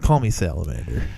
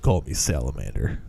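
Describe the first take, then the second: First: It is said in his normal voice. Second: It is said in a Snake Plissken voice.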